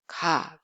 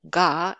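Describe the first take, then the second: First: The consonant is soft, unvoiced and without aspiration. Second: The consonant is fully voiced like English g. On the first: The speaker calls it right. "Very soft, plain sound" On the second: The speaker calls it wrong. "or it's not ga"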